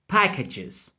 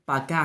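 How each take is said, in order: First: It is pronounced with English sounds. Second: It is pronounced with Spanish letter sounds. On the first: The speaker calls it right. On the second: The speaker calls it wrong.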